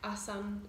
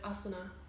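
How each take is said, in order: First: The word ends without a final vowel. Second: The word ends with a final vowel. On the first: This is how it is said in Hindi. "they actually leave the A off the end" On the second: This is how it is said in Sanskrit. "the proper pronunciation of Sanskrit is to actually pronounce the A"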